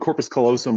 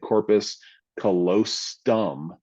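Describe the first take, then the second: First: Callosum is said without a t sound. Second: Callosum is said with an added t sound. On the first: The speaker calls it right. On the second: The speaker calls it wrong.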